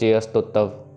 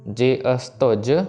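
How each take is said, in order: First: The final 'j' sound is slurred and unclear. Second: The final 'j' sound is clearly pronounced. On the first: The speaker calls it wrong. "उनकी आवाज़ ऐसे आती है" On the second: The speaker calls it right. "तुज की आवाज़ proper आनी चाहिए"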